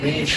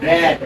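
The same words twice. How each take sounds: First: "Read" with a long ee, like reed; base form "Read". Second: "রেড" punched out with a short e; past-tense pronunciation. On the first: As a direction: say "Read" to rhyme with need. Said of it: "উচ্চারণ ভিন্ন হবে". ("Read" উচ্চারণ রীড, দীর্ঘ ঈ দিয়ে) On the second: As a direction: stress "রেড", rhyming with bed. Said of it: "এটা উচ্চারণ করবে কি?". ("রেড" জোর দিয়ে, হ্রস্ব এ-ধ্বনিতে) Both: Shown as a demonstration.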